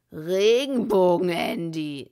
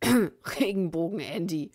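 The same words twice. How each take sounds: First: Loud, slow gangster drawl of Regenbogen; slow and menacing. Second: Loud cough-hidden jeer on Regenbogen; coughed mockery. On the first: Bill repeating the mockery at Andy, slow and loud. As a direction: draw it out slowly as a threat. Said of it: "sagte er langsam". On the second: Someone mocking Andy behind his hand, coughed. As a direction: fake a cough around the mockery. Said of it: "hustete jemand hinter vorgehaltener Hand". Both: A narrator's reading.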